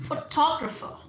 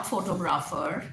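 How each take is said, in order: First: Photographer with a high punched second syllable, fuh-TOG-ruh-fuh; stress on TOG. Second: Photographer as FO-to-graa-fer, full vowels; mispronunciation. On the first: Teacher shows syllable stress, photographer as fuh-TOG-ruh-fuh. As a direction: hit the TOG in photographer, shrink the other vowels. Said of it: "टॉ पे आपने stress करना है". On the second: Teacher shows what it is not, photographer as fo-to-graa-fer. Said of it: "not photographer". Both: Shown as a demonstration.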